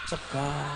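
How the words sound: The word ends with an 'a' vowel. This is how ngapak dialect speakers say it. "orang ngapak sega"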